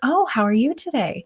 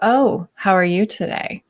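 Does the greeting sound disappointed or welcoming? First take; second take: welcoming; disappointed. First: It sounds warm, welcoming and genuinely interested. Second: It sounds disappointed and disapproving, like a reproach.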